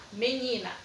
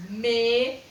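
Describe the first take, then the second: First: Said in the usual way. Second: MENINA broken into ME, NI, NA with pauses; teacher sounding out ME... NI... NA; intoned in three. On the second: Shown as a demonstration. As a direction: give each syllable of MENINA its own beat. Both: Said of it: "entonar ela três vezes".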